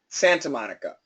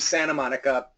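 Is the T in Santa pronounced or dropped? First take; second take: pronounced; dropped. First: The T in Santa is clearly pronounced. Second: The T in Santa is dropped. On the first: "I want you to say Santa Monica" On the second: "as you say it without thinking, you'll start saying Santa Monica, and that's real English"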